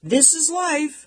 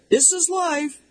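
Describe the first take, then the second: First: Much higher and slow, a mock call; dad calling. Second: Much higher, a far-off mock call; dad calling again. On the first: Dad calling from upstairs, high slow mock call. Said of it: "my dad calls from down from upstairs". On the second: Dad repeating from upstairs, high far-off mock call. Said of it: "my dad calls".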